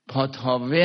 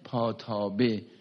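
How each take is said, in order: First: The middle consonant is a v sound. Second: The middle consonant is a b sound. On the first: "هم با واو هم تلفظ میکنن" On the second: "اینو میگن پاتابه"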